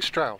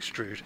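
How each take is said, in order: First: The vowel is an 'ow' sound. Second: The vowel is a long 'oo' sound. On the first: This is how people commonly say it. "people call it Stroud" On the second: This is how an older local speaker said it. "who had a Gloucester accent, would have pronounced it something a bit like"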